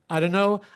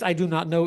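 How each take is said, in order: First: The words blur together, like dunno. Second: Every word is said fully and separately. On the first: "is now reduced to" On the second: "the phrase I do not know"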